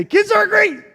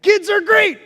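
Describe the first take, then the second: First: High, loud and beaming; enthusiastic kids are great. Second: Cheerful. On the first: Shown as a demonstration. Preacher to older folks, cheering kids are great. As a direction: sell it to the crowd with joy. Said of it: "but when I say". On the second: Real, not acted. Children's talk, cheering kids.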